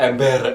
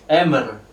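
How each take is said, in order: First: The middle has an m followed by b. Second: The middle has only an m sound. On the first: This is how locals heard and adopted it. "jadi dia mendengarnya ember" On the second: This is the original foreign pronunciation. "Kalau di sini bahasa Belandanya suaranya gini"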